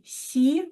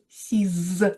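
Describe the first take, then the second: First: The word ends with no final consonant. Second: The word ends with a z sound. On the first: A noun starting with a consonant follows. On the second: A noun starting with a vowel follows.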